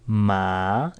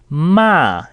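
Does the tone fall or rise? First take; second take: rise; fall. First: The pitch rises through the syllable. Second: The pitch falls sharply through the syllable. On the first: "in a rising tone" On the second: "in a sharp falling tone means to scold"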